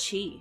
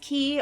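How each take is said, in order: First: The word begins with a ch sound. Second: The word begins with a k sound. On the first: "or is it chi?" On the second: "is it pronounced key"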